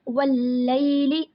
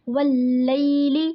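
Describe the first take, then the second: Both takes have the same delivery.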